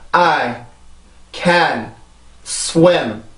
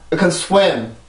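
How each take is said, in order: First: The sentence is said slowly and carefully. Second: The sentence is said quickly. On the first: "정확한 발음으로" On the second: "그럼 빨리 합니다"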